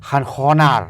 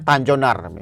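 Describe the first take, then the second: First: The name is said with a Spanish accent. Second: The name is read as plain Indonesian letters. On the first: "kalau pakai bahasa logat Spanyol tuh" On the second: "panggilannya namanya Tanjonar"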